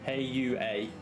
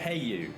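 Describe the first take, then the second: First: The name ends with an extra vowel sound. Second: The name ends without an extra vowel sound. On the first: The speaker calls it right. "Just with the added A on the end" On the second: The speaker calls it wrong. "Heiyu just doesn't sound right"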